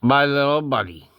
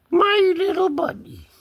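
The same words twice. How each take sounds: First: Said in the usual way. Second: High-pitched pet talk; high cooing. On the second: Pretend. Owner doting on the cat, high-pitched cooing. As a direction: coo it up high.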